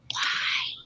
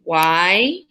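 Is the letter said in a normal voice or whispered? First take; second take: whispered; normal. First: It is whispered. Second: It is said in a normal voice.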